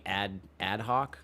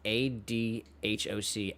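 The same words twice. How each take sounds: First: "ad hoc" said slowly as one word; pronounced as a word. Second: "A D H O C" spelled letter by letter. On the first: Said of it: "that makes it A D H O C". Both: Shown as a demonstration.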